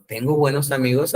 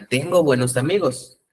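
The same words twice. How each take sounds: First: "Tengo buenos amigos" as a question, rising at the end; "Tengo buenos amigos" lifted into a self-question; questioning intonation. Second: "Tengo buenos amigos" as an affirmation, falling at the end; "Tengo buenos amigos" said as a statement, not a question; statement intonation. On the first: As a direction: ask yourself "Tengo buenos amigos" with a final rise. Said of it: "qué tal si me pregunto". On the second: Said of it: "hace ratito yo afirmaba". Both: Shown as a demonstration.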